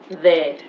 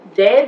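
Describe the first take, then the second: First: The th is soft with air between teeth. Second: The th is a hard stop-like sound. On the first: The speaker calls it right. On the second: The speaker calls it wrong.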